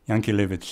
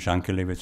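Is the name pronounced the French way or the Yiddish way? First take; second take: Yiddish; French. First: The name is given its Yiddish pronunciation. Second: The name is given its French pronunciation. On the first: "Yankelevich in the Yiddish pronunciation" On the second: "In French, they call him Jankelevich"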